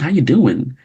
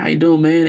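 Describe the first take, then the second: First: It is said in a careful, formal suburban style. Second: It is said in a relaxed, casual street style.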